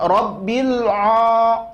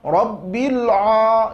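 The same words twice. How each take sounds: The two takes are said the same way.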